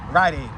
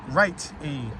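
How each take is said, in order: First: The t sounds like d, as in ride. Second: The t is pronounced clearly as t. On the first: "I always had a habit of calling it Rite Aid. Like ride, like ride a bike" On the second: "But it's really Rite Aid. But who really pronounces the T?"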